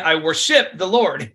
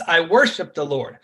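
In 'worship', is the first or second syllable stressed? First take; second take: second; first. First: The stress is on the second syllable of worship. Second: The stress is on the first syllable of worship. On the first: The speaker calls it wrong. "You would never say I worship the Lord. You know, that sounds funny" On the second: The speaker calls it right. "It's I worship the Lord. So that worship, so wor is your tum, ship is your ta"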